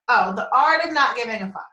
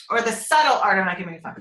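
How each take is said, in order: First: Said in the usual way. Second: Quick title correction, "Subtle" most prominent; "Subtle" picked out with emphasis; stress on Subtle. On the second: Real, not acted. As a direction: lean on "Subtle" as the corrected word. Corrects title, adding the missed word.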